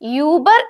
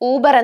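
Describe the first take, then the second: First: The first vowel is a rounded front ü sound. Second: The first vowel is a plain back u sound. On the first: The speaker calls it right. "Pronunciation യൂബർ എന്നാണ്" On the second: The speaker calls it wrong. "ഊബർ എന്നല്ല"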